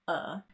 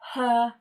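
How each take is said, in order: First: The word starts without an H sound. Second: The word starts with an H sound.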